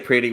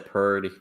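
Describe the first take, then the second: First: The word is said with standard pronunciation. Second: The word is said with a Texan drawl. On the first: "we don't we don't say pretty" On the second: "we say purdy"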